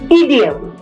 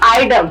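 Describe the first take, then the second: First: It begins with an 'ee' sound. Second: It begins with an 'eye' sound. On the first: The speaker calls it right. "It is ईडीएम" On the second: The speaker calls it wrong. "It is not आइडम"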